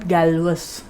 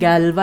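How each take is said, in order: First: The name ends with a sounded -us. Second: The name ends in a plain vowel, no s. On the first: The speaker calls it wrong. "and not Galvus" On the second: The speaker calls it right. "which we pronounce by saying Galva"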